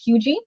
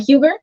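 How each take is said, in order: First: The name ends with a 'gee' sound. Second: The name ends with a 'ger' sound. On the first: The speaker calls it right. "actually pronounced Hugie" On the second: The speaker calls it wrong. "it looks like it's spelled Huger"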